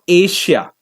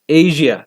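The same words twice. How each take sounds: First: The middle consonant is not a voiced zh. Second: The middle consonant is a voiced zh sound. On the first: The speaker calls it wrong. "It is not Asia" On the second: The speaker calls it right. "It is a heavier form of sh"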